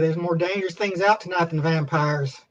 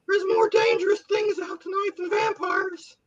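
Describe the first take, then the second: First: It is said in a cool, tough voice. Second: It is said in a nerdy teenager voice.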